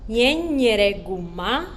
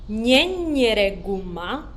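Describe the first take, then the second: No difference in how they are said.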